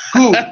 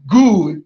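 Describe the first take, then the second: First: The word ends with a crisp t sound. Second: The word ends with a soft d sound. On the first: "they put a T on it instead of a D" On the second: "When a preacher do this"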